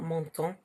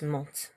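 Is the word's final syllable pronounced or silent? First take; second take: pronounced; silent. First: The ending is pronounced as an extra syllable. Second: The ending is silent, leaving one syllable. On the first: The speaker calls it wrong. "It's not montant" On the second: The speaker calls it right. "it's just monte"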